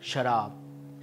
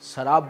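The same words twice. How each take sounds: First: It begins with an sh sound. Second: It begins with a plain s sound. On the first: The speaker calls it right. "सही क्या है?" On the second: The speaker calls it wrong. "ये गलत है।"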